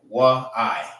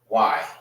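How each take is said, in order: First: The two sounds are said separately. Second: The two sounds are joined into one syllable. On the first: "If it was like if it's spelled like this, you would say wa I" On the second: "So these two will be connected"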